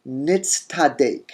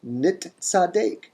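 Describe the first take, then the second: First: Nitztadek said slowly, tz before an emphatic t; slow metathesized form. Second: Nit tzadek drawn out, Nit then tzadek; slow nit tzadek. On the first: Teacher showing the assimilated form, Nitztadek. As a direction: stretch Nitztadek, tz then t. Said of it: "that tav becomes tet". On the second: Teacher repeating the expected form, Nit tzadek. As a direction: stretch Nit tzadek with t before tz. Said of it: "we would expect". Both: Shown as a demonstration.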